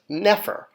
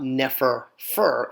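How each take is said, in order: First: The word ends after a single final syllable. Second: The final syllable is repeated at the end. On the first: The speaker calls it right. "it's just nefer" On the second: The speaker calls it wrong. "it's not nefer fur"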